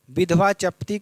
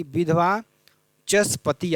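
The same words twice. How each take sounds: First: विधवा चपती with no s, "chapti"; विधवा चपती, the last word cut to two syllables; wrong form. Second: विधवा चसपति with s before p, "chas-pati"; विधवा, a pause, then चसपति with the s sounded; corrected form. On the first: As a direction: say विधवा चपती as "vidhva chap-ti". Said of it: "का क्या हो जाएगा". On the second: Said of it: "आपका हो जाएगा". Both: Shown as a demonstration.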